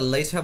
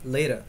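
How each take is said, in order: First: The middle consonant is a crisp T sound. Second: The middle consonant is a soft D-like sound. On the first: "আমরা লেটা বলতে পারি" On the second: "ওই টি টি আর উচ্চারণ আমরা ড এর মতো করতে পারি"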